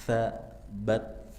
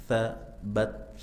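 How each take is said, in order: No difference in how they are said.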